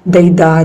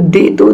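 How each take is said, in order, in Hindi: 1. अक्षर आपस में जुड़ गए हैं, स्वर धुंधले हैं। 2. दोनों अक्षर स्पष्ट और साफ़ बोले गए हैं।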